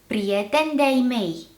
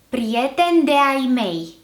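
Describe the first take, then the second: First: The meeting vowels merge into one syllable. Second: The meeting vowels are said separately. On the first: It suits informal speech. "then the contracted form" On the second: It suits formal speech. "the uncontracted form first"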